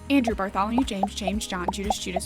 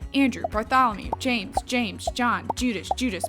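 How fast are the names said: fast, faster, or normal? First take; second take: faster; fast. First: The names are said at the quickest pace. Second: The names are said at a quicker pace. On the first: "And faster" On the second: "Let's say it faster"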